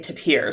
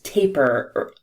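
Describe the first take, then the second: First: The word does not rhyme with 'paper'. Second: The word rhymes with 'paper'. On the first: This is how many people say it. "I have heard a lot of people say tapir" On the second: This is the official pronunciation. "the official pronunciation is taper, rhyming with paper"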